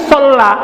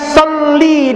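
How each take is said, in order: First: The word ends with an 'a' vowel. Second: The word ends with an 'i' vowel. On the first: The speaker calls it wrong. "Tapi salah, ... tapi sola" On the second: The speaker calls it right. "bukan soli dia"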